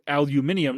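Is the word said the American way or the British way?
British. The word is said the British way. The speaker calls it right. "because it's spelled the British way"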